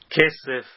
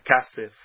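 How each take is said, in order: First: The first vowel is an 'e' sound. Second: The first vowel is an 'a' sound. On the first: This is the form used mid-phrase. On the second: This is the form used at the end of a phrase.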